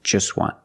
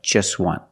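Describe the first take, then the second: Both takes have the same delivery.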